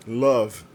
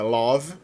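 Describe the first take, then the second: First: Love said with a closed, short vowel; the right way: Love with a closed vowel; teacher giving the model Love, closed vowel. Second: Love said with an open o, like "lóv"; the wrong way: love with a wide open o; teacher showing the mistake, love with an open o. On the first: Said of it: "é um O fechado". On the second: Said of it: "com o aberto". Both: Shown as a demonstration.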